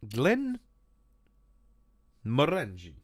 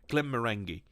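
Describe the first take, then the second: First: It is said in an Italian accent. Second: It is said without an Italian accent.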